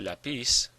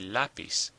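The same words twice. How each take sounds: First: The stress is on the last syllable. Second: The stress is on the first syllable. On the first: The speaker calls it wrong. "we don't say lapis" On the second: The speaker calls it right. "we say lapis"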